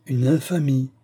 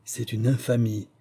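First: "une infamie" repeated higher and louder, breaking out; teeth chattering outcry. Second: First "infamie" held back, trembling; teeth chattering. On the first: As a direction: let the second "infamie" burst louder. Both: Acted. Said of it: "dit-il en claquant des dents".

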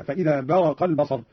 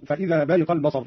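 First: برق said "baraqa", a after r; fatha on ra. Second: Said in the usual way. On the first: Shown as a demonstration. Teacher showing Qalun's variant, برق as "baraqa". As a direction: slowly recite برق as "baraqa", not "bariqa". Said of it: "قرأ قالون بفتح الراء هكذا". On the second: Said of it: "قوله تعالى".

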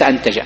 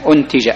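First: أنتج as antaja, with an opening "a"; low, quiet example of misread أنتج, starting on a; fatha on alif. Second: أنتج as untija, with an opening "u"; low, quiet correction, أنتج starting on u; damma on alif. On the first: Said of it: "وليس أنتج". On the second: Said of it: "بضم ال-، ال-، ال-، ال-، الألف". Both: Shown as a demonstration.

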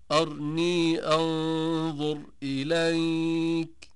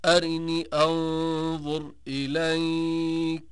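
First: Slow drawn-out chant, أرني as "arnee"; r closed onto n in أرني; silent-vowel r. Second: Slow drawn-out chant, أرني as "arinee"; short i on r. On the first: Teacher giving another verse example, أرني chanted as "arnee". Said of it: "قرأ ابن كثير والسوسي". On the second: Teacher giving al-Duri's example, أرني chanted as "arinee". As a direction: slip a brief i after r in أرني. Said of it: "قرأ الدوري عن أبي عمرو". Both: Shown as a demonstration.

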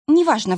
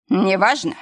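First: НЕВАЖНО falling, high and louder; dismissive statement. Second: НЕВАЖНО rising at the end; incredulous echo question. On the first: Arina brushing off her husband, НЕВАЖНО as a falling statement. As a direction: drop the end of НЕВАЖНО to close the matter. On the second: Husband echoing his wife in disbelief, НЕВАЖНО rising. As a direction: throw НЕВАЖНО back as a question. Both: A narrator's reading.

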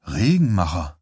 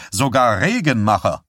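First: Regenmacher said low and stunned, falling; stunned disbelief. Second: Dry, amused falling punchline on Regenmacher; wry punchline. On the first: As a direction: Regenmacher repeated low and dumbfounded. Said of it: "sagte Johnny fassungslos". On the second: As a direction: land Regenmacher as a joke with a falling tune. Herman's punchline about Stilson. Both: A narrator's reading.

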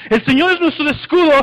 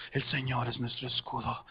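First: Raised, higher battle chant; cántico que sube. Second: Very low, hushed army murmur; murmullo del ejército. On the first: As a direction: chant it up high as the army joins in. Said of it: "y empieza a subir". (cántico de ejército, alto y firme) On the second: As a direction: murmur it low and soft, like soldiers before battle. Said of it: "como que el murmullo del ejército". (murmullo grave y muy bajo de ejército) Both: Shown as a demonstration.

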